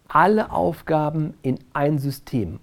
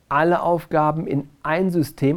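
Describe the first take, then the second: First: The stress is on the word alle. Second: The stress is on the word ein. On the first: Every task, private ones included, goes into the list. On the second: All tasks belong in one single system, not many.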